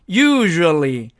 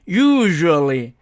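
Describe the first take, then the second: Both takes have the same delivery.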